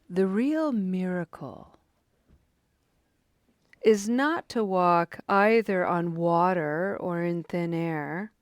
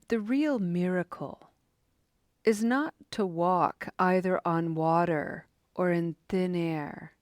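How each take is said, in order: First: It is read slowly with added emphasis. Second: It is read at an ordinary pace.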